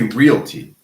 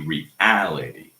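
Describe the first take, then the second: First: The word is squeezed into three syllables. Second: The word is said with four full syllables. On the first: The speaker calls it wrong. "We don't say realty" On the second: The speaker calls it right. "We say reality"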